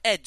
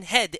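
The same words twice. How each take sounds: First: "ed" for head, starting on the vowel; dropped H. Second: Put-on "head" with its H sounded, accented; H pronounced. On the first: Retold or imitated. Quoting the trainer's usual version, "ed" with the H dropped. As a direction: say "ed" as head without its H. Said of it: "and not "ed". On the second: Quoting the trainer's occasional version, "head" with the H pronounced. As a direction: say "head" with a clear H. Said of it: "sometimes he would say".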